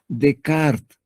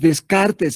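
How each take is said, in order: First: The name is said with a French pronunciation. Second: The name is read letter by letter as spelled. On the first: "pero se pronuncia Descartes" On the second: "Es Descartes, se escribe"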